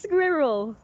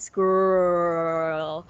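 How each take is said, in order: First: It is said in a British accent. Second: It is said in an American accent.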